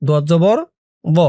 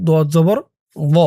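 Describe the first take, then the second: Both takes have the same delivery.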